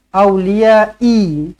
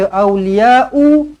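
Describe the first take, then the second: First: The word ends in an i vowel. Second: The word ends in an u vowel. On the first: "tak nak" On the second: "jangan baca awliya'u"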